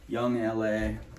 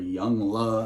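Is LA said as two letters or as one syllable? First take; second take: letters; one syllable. First: LA is spelled out as two separate letters. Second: LA is said as one single syllable.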